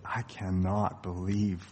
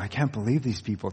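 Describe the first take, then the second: First: It sounds exasperated and let down. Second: It sounds amazed and admiring. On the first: The people have become a disappointment. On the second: The people seem wonderful. "the tone changes from"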